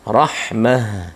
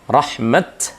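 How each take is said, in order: First: The word ends with a soft h sound. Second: The word ends with a clear t sound. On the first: "harus berfungsi sebagai huruf hak" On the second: "kalau waqaf terbaca huruf tak"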